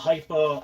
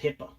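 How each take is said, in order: First: The first syllable sounds like 'hype'. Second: The first syllable sounds like 'hip'. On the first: The speaker calls it right. "This is a Hypo" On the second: The speaker calls it wrong. "it's not HIPAA. This it sounds like HIPAA law. Everybody keeps saying it wrong"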